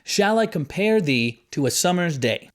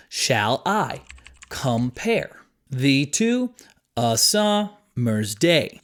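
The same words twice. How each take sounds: First: Said in the usual way. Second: "Shall I / compare / thee to / a sum / mer's day", very slow, pausing after each pair; split into iambs. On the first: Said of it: "Even just speaking it out loud". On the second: Shown as a demonstration. Teacher breaking a famous line into iambs, "Shall I compare thee to a summer's day" slowly pair by pair. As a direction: chop "Shall I compare thee to a summer's day" into two-syllable beats, second one stressed. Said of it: "unstressed and then stressed syllable".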